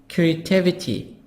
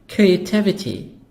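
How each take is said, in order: No difference in how they are said.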